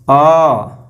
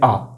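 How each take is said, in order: First: The vowel is held for three beats. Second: The vowel is held for two beats. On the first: "इसमें तीन मात्रा का समय प्लुत में" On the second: "इसमें दो मात्रा का समय लगता है"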